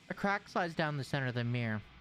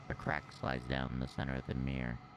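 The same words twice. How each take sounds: First: It is read in his normal voice. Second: It is read in a put-on evil voice.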